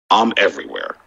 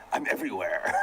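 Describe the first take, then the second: First: Low, menacing villain line. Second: Laughing through a mock villain line; laughing imitation. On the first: Real, not acted. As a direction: say it like a movie villain. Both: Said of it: "why you sound like a villain?".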